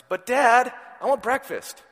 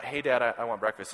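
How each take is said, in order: First: Put-on much higher, louder little-boy plea; whiny toddler. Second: Plain-ish son voice. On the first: Father imitating his son begging for breakfast, high whine. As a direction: whine it like a hungry three-year-old. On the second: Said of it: "it's not". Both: Shown as a demonstration.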